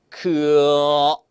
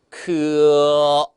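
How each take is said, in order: Both takes have the same delivery.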